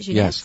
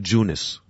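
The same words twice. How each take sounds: First: The first syllable has a soft French 'zh' sound. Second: The first syllable sounds like the English word 'jew'. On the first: The speaker calls it right. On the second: The speaker calls it wrong.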